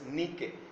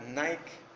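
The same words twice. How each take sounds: First: It is pronounced the Greek way. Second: It is pronounced the English way. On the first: This is the original form. The speaker calls it right. "pero es Nike" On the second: This is the borrowed form. The speaker calls it wrong. "el inglés que conocemos que se pronuncia Nike"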